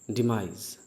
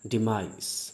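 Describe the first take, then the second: First: The word ends with a z sound. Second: The word ends with an s sound. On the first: The speaker calls it right. "ज अंत में बोलेंगे" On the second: The speaker calls it wrong. "जो पहले मैंने स बोला था वो भी गलत है"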